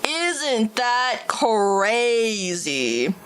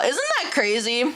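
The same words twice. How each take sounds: First: Isn't that crazy stretched very slowly; very slow drawn out. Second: Said in the usual way. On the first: Real, not acted. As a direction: drag out every word of Isn't that crazy. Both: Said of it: "repeats line drawn out".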